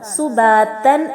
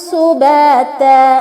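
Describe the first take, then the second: First: The word ends with an n sound. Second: The word ends with a long a vowel. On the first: "താഇന് തൻവീൻ ബിൽ ഫത്ഹയാണ്" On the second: "താഇന് ഫത്ഹ അലിഫ് മദ്ദാക്കി മാറ്റിക്കൊണ്ടാണ് വഖഫ് ചെയ്യേണ്ടത്"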